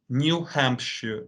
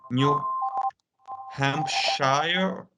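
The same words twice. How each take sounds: First: It is said with a British pronunciation. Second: It is said with an American pronunciation. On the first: The speaker calls it right. "the correct pronunciation, at least for British speakers" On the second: The speaker calls it wrong. "in the United States, for example, they're gonna say"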